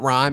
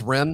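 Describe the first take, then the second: First: The vowel sounds like the one in 'time'. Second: The vowel sounds like the one in 'him'. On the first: The speaker calls it wrong. "It's not rhyme" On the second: The speaker calls it right. "It's pronounced Rim"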